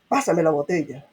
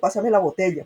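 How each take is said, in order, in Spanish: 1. Se dice con un tono brusco y áspero. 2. Se dice con un tono suave. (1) "Ahora otra cosa es" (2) "o si te está diciendo algo suave"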